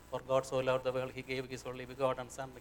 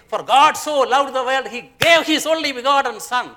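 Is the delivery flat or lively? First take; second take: flat; lively. First: It is spoken in a flat, monotonous voice. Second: It is spoken in a lively, varied voice. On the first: The speaker calls it wrong. "I am so monotonous in the musical term, I will go to sleep" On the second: The speaker calls it right. "What a difference"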